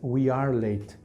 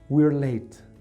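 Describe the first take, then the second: First: Two separate words, we and are. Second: One contracted syllable, we're.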